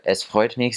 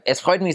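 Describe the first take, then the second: First: It is said in a plain standard German accent. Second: It is higher, faster, more nasal, in Austrian accent.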